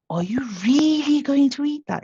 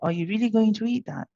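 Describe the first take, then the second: First: The word 'really' is said with strong emphasis. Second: The sentence is said flat, with no emphasis. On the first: "You see how I emphasize the really?" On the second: "I could be monitored and say"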